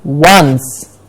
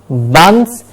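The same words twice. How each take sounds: First: The word starts with a w sound. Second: The word starts without a w sound. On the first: The speaker calls it right. "like there is a W in the beginning" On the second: The speaker calls it wrong. "It's not once"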